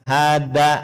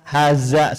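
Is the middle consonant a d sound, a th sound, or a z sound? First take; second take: d sound; z sound. First: The middle consonant is a plain d sound. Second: The middle consonant is a plain z sound. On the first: "bukan seperti dal, hada, salah" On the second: "bukan cuman za, haza, salah"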